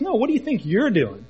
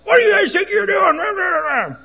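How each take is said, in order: First: "you're" punched higher to turn the question back; firm retort leaning hard on "you're"; stress on you're. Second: High, drawn-out angry yell; loud, strained, high-pitched holler. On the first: Dad throws the stranger's question back. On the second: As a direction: imitate an irate stranger yelling from below. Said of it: "he starts yelling at us". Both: Retold or imitated.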